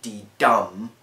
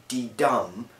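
First: Dum hit hard and loud after a soft D; D DUM, second beat belted out; loud iamb demo. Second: Da-DUM, weak then strong; iamb rhythm demo. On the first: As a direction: punch the dum in D dum. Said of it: "the first one soft, the second one stressed". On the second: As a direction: tap out D dum, stress on dum. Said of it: "which is D dum". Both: Shown as a demonstration.

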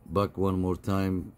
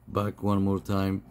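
No difference in how they are said.

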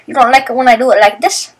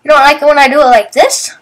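First: Teasing. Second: Louder teasing. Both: Retold or imitated. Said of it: "Now I'm doing it again 'cause I'm annoying".

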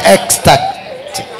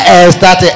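First: "ecstatic" slowly with a clear k, ec-static; correct pronunciation. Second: "ecstatic" without its k, as es-tatic; wrong pronunciation. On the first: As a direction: sound out the k in "ecstatic". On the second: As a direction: drop the k in "ecstatic". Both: Shown as a demonstration. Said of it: "It's not ecstatic".

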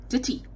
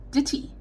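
Both takes have the same delivery.

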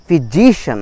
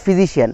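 First: "physician" with JI punched, ending "shun"; correct stress. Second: "physician" ending in "shi-an", no stress; wrong version. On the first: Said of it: "একটা stress পড়লো". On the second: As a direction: say "physician" as an even "fi-ji-shee-an". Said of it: "not physician". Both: Shown as a demonstration.

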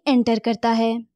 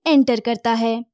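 Both takes have the same delivery.

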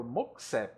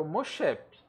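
First: Moxep said with a hard x, MOK-sep; English pronunciation. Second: Mochep said the Portuguese way, "sh" sound, Mo-SHEP-ee; Brazilian pronunciation. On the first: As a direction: say Moxep the way a foreign pilot would. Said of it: "quando eu vejo que o cara é gringo". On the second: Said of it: "tem brasileiro voando, eu falo". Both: Shown as a demonstration.

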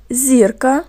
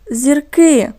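First: "Зірка" with the stress on ЗІР; "Зірка" said as ЗІР-ка, first syllable stressed. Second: "зірки" with the stress on КИ; "зірки" said as зір-КИ, second syllable stressed; stress on last syllable. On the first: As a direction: lean on the first syllable of "Зірка", ending on a rise. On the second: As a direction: lean on the final syllable of "зірки", then fall. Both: Shown as a demonstration. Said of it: "наголос теж змінився".

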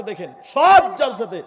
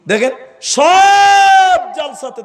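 First: Said in the usual way. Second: High, loud, drawn-out call to the crowd; full-force preacher's cry; preaching shout. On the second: Real, not acted. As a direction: cry it out over the whole gathering.

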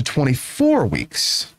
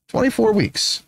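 First: Said in the usual way. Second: "Twenty-four weeks" repeated much higher, falling at the end; pointed repeat. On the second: Real, not acted. Host stressing the legal limit to listeners, pointed repeat of "Twenty-four weeks".

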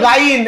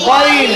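First: গাইন with a long gaain; wrong pronunciation. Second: গইন short as goin; correct pronunciation. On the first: Teacher voicing the error: গাইন said long. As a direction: say গাইন stretched, the mistake. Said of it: "ভুল করে কি বলে?". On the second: Teacher confirming right form: গইন said short. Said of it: "সঠিক উচ্চারণ কি?". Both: Shown as a demonstration.

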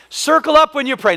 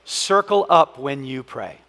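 First: Higher, louder, "up" punched; punchy repeat. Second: "Circle" stretched and falling, said slowly; slow, low statement. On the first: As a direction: hit the point again with energy. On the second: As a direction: pastor stating his final principle. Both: Shown as a demonstration. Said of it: "here's the last one".

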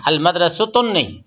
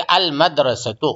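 First: अल मदरसतुन said with wrong -un ending; teacher shows अल मदरसतुन is wrong. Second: अल मदरसतु with short -u on ta; teacher gives the right अल मदरसतु; correct ending. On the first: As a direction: say अल मदरसतुन as the rejected form. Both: Shown as a demonstration. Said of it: "ता के ऊपर पेश देना".

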